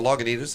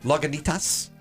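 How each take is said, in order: First: The ending is said plainly, without extra force. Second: The ending 'itas' is said hard and forcefully.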